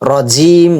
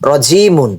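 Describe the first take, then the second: First: The word ends cut off on the 'm'. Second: The word ends with the full '-mun' ending. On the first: The reader stops at this word. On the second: The reading continues without stopping.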